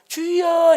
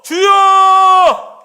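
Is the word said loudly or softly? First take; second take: softly; loudly. First: The word is said softly, without force. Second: The word is cried out loudly from the belly. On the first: The speaker calls it wrong. "주여 이게 아니라" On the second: The speaker calls it right. "주여 주여 이렇게 뱃속에서 부르짖으십시오"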